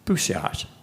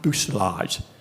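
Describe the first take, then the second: First: The L sound is left out, French style. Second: The L sound is pronounced, English style. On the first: The speaker calls it right. "the word's pronounced bousillage ... those L's aren't in there" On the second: The speaker calls it wrong. "not bousillage ... don't put the English pronunciation"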